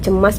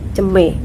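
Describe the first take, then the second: First: The word ends with an 'as' sound. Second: The word ends with an 'e' sound. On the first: This is the standard form. "akhirannya itu as" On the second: This is how Bengkulu people say it. "berubah jadi e"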